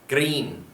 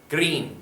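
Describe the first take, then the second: First: The word ends with an n sound. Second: The word ends with an n sound.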